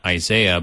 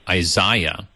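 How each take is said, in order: First: It is said in an American accent. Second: It is said in a British accent.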